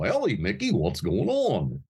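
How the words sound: The voice sits back in the mouth, sounding swallowed. This is the older character voice. "it was more swallowed"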